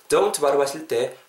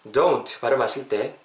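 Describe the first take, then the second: No difference in how they are said.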